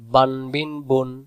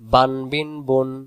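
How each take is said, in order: No difference in how they are said.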